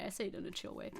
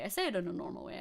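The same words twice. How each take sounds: First: Much softer, laid-back aside; chill. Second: Said in the usual way. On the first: Shown as a demonstration. Streamer excusing liking her own voice, chill and low-key. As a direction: let it drop away soft and cool.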